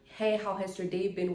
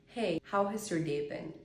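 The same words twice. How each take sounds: First: It is said quickly and with tension. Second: It is said slowly and in a relaxed way. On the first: It is an ordinary, everyday greeting. The speaker calls it wrong. "how you would normally say, ... In a very fast and precious way" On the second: It is meant to sound seductive. The speaker calls it right. "just say it in a very relaxed way"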